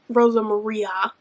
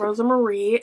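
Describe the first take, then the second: First: The second name ends with an 'ah' sound. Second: The second name ends with an 'ee' sound. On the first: The speaker calls it right. "and it's" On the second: The speaker calls it wrong. "I was saying the Luis's partner's name wrong"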